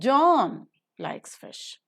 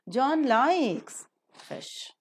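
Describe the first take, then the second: First: The main stress falls on John. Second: The main stress falls on likes.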